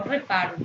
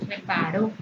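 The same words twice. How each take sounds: First: "reparo" with the weight on -pa-; "reparo" as re-PA-ro, the mistaken reading; stress on middle syllable. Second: "reparó" with the weight on -ró; "reparó" as re-pa-RÓ, the corrected reading; stress on final syllable. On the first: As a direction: say "reparo" stressed on pa, the ending unstressed. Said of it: "No reparo". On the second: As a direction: say "reparó" stressed on its last syllable, lifting at the end. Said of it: "lo correcto es decir que reparó". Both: Shown as a demonstration.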